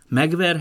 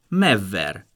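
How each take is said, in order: First: A g sound comes before the v. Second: The g becomes v, giving a long v. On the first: This is the standard form. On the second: This is the Palóc dialect form. "a megigekötő G-je teljesen hasonul"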